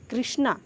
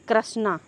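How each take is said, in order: First: The first syllable is said with a 'ri' sound. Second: The first syllable is said without a 'ri' sound. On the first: The speaker calls it right. "ऐसे लगता है तो कि कृष्णा री आ रहा है" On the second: The speaker calls it wrong. "न कि कृष्णा"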